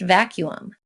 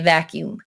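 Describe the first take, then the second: First: The U sound is kept. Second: The U sound is dropped. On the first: This is the standard form. The speaker calls it right. "it's actually pronounced vacuum" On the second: This is a regional habit. The speaker calls it wrong. "in the Midwest, we tend to leave out that U"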